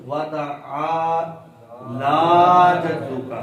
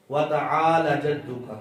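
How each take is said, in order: First: وَتَعَالَ جَدُّكَ chanted slowly, عین and لام both held long; correct long vowel. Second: وَتَعَالَ جَدُّكَ with لام short, straight into جَدُّكَ; usual mistake. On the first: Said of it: "تو اس کا تلفظ". (وَتَعَالَ جَدُّكَ، لام کو لمبا کر کے) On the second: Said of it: "اس طرح ہی پڑھا جاتا ہے نا". (وَتَعَالَ جَدُّكَ، لام کو چھوٹا کر کے) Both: Shown as a demonstration.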